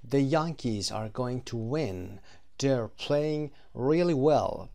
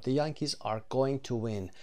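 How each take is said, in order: First: Slow, careful example sentences; slow model reading. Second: Said in the usual way. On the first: Shown as a demonstration. Teacher reading the prediction example, slow and clear. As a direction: read them out slowly for learners. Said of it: "teacher models example". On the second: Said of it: "teacher repeats example".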